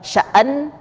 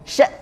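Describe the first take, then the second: First: The word ends with an added trailing vowel. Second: The word ends with an abrupt glottal stop. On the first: The speaker calls it wrong. "Bacaannya bukan sya'an" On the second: The speaker calls it right. "tapi sya' terhenti ya pada makhrajnya"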